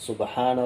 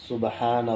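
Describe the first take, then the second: No difference in how they are said.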